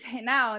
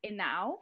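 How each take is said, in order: First: Henao with the H sounded; anglicized pronunciation. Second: Henao with a silent H; Spanish pronunciation. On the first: Guest tells how Americans say her surname, Henao with audible H. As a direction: say Henao the American way, like "hay-now". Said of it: "once I came to the United States". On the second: Guest explains her surname to the host, Henao with silent H. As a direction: say Henao the Spanish way, starting on the vowel. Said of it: "in Spanish, the H is silent". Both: Shown as a demonstration.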